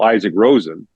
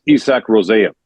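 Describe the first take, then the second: First: Said in the usual way. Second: Isak Rosén with Swedish vowels, EE-sahk roo-SEHN; Swedish pronunciation. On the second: Shown as a demonstration. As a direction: say Isak Rosén the Swedish way, stress on the last syllable. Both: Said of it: "is Isak Rosén".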